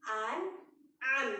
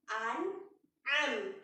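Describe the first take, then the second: Both takes have the same delivery.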